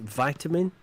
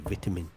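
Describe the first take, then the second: First: The word is said with an American accent. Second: The word is said with a British accent. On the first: "I think Americans pronounce it vitamin" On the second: "whereas we say vitamin"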